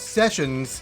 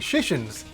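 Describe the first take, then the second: First: The word begins with a plain s sound. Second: The word begins with an sh sound. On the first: The speaker calls it right. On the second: The speaker calls it wrong.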